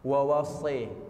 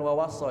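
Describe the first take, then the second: First: The final vowel is bent toward an 'e' sound. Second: The final vowel is an open 'a' sound. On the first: This is the Warsh reading. "di riwayat Warash bacanya" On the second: This is the usual reading. "bukan wawasso ini"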